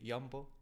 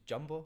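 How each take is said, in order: First: It is said with a Dutch-style pronunciation. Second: It is said with a Scottish pronunciation. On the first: "you say Jumbo" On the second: "In Scotland, this is Jumbo"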